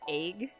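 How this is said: The vowel is shifted, northern Wisconsin style. "especially in the northern state, pronounce it egg"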